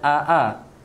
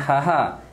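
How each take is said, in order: First: Both syllables start with a glottal catch. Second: Both syllables start with an h sound. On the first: "jangan aa" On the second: "Kalau ha-ha salah"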